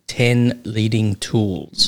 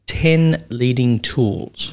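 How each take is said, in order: First: Ten Leading Tools, drawn out and falling; slow title emphasis. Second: Ten leading tools, each word slow and weighted; slow title emphasis. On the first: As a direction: spell out Ten Leading Tools slowly, like a headline. Naming the book title again. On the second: Announcing the book's title. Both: Shown as a demonstration.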